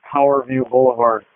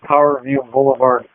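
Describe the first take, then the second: No difference in how they are said.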